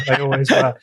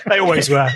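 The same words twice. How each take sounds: First: Said in the usual way. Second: Said through a laugh. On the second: Real, not acted. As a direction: still laughing, amused. Laughs, then repeats plainly.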